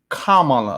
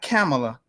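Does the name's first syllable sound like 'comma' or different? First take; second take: comma; different. First: The first syllable sounds like the word 'comma'. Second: The first syllable does not sound like 'comma'. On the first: The speaker calls it right. "like commas, like comma" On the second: The speaker calls it wrong. "not Kamala"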